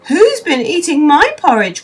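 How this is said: It is cried out in Mother Bear's voice.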